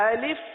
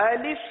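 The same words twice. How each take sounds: Both takes have the same delivery.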